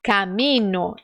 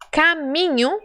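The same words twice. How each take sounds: First: "Caminho" as Spanish camino, plain N instead of NH; pronúncia espanhola. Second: "Caminho" in Portuguese, with the palatal NH; pronúncia portuguesa. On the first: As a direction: say "Caminho" slowly as ca-mi-no, without the palatal sound. ("Caminho" em espanhol, camino, com N simples) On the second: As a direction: say "Caminho" with NH as in Portuguese, pitched higher. ("Caminho" em português, com som de NH) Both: Shown as a demonstration. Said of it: "é só tirar uma letra".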